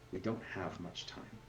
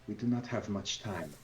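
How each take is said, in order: First: It is said in the speaker's ordinary voice. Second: It is said in a put-on character voice.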